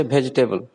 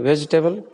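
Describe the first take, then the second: First: "vegetable" begun with Hindi bh; bha for v. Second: "vegetable" begun with v; correct v sound. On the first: Teacher showing what learners say, bh at the start of "vegetable". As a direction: swap the v of "vegetable" for bh. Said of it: "you say vegetable". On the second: Teacher giving the intended form, v at the start of "vegetable". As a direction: say "vegetable" on a v, lips not closing. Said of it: "instead of saying vegetable". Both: Shown as a demonstration.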